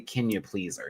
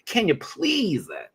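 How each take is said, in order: First: It is said in a plain, ordinary way. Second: It is said in a showy, dramatic way. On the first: The speaker calls it wrong. "I would never say" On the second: The speaker calls it right. "That's how I would want to say her name"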